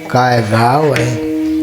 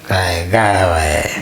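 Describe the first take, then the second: First: It is said in an admiring, praising tone. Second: It is said in a scornful, mocking tone.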